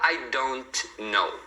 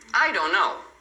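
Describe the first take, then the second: First: The final T of don't is pronounced. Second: The final T of don't is dropped. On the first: "você não fala I don't know" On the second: "Normalmente as pessoas não vão falar esse T final aqui"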